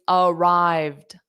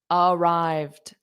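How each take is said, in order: The two takes are said the same way.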